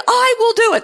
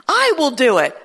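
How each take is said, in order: First: "I will do it." said much higher and louder with a laugh; mock-grand voice of God, amused; playful higher take. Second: Said in the usual way. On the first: Shown as a demonstration. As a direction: toss "I will do it." up high, laughing. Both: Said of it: "Did you like that?".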